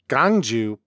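The first syllable drops its 'w' glide.

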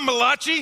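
The name is pronounced in an Italian-sounding way. The speaker calls it wrong. "It's not Malachi, I'm not an Italian prophet"

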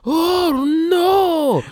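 It imitates the Japanese dub's delivery.

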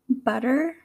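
Spoken in an American English accent. "in my American accent"

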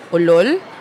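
It sounds like a questioning, surprised query. It means 'really?'. "which is like really"

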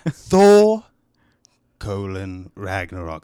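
It is read in a put-on accent.

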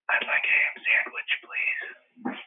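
It is said in a whisper.

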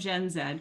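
The letter is said as 'zed', Canadian style.

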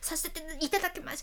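The phrase is rushed out smoothly in one go. The speaker calls it wrong. "とにかく滑らかに一気に言わないと"

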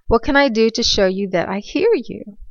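It is said in a calm voice.

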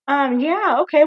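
It is said in a polished, professional phone voice. The speaker is trying to sound like a proper employee. The speaker calls it right. "Using a professional voice"

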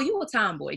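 It is said in a light, encouraging tone. Being a tomboy is fine or good. "It was never said like"

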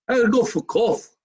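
It is said in an Italian accent.

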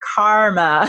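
It is said in an American accent, with the r. "That was very American of you"

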